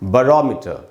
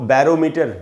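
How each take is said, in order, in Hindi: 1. पहला स्वर कमज़ोर 'uh' है। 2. पहला स्वर 'bat' वाले पूरे 'a' जैसा है।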